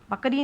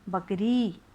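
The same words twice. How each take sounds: First: The final vowel is short and clipped. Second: The final vowel is drawn out long. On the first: The speaker calls it wrong. "बकरी नहीं होता" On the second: The speaker calls it right. "बाद की री जो होती है थोड़ी सी लंबी बोली जाती है"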